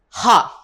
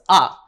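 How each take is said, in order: First: It starts with a clearly breathed h sound. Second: It starts with a vowel, no h sound. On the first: The speaker calls it right. "This is ha. You have to stress that H word" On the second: The speaker calls it wrong. "This is ah"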